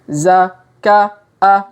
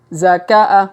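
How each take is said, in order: First: Each syllable is said slowly and separately. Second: The syllables are run together quickly. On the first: "kita baca pelan-pelan" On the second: "Kalau dipercepat"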